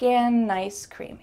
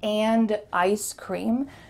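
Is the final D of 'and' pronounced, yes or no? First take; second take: no; yes. First: 'And' is said as 'an', linked to 'ice'. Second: 'And' is said fully, with its final D. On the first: "you're just saying" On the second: "Instead of"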